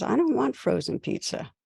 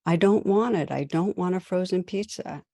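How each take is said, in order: First: Put-on higher child's voice, whining "I don't want frozen pizza."; a small boy refusing dinner, pitched up; son's protest. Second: Put-on a boy's rising protest that settles; upset son. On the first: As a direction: son pushing back on the frozen pizza. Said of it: "He says". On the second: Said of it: "her son's getting upset".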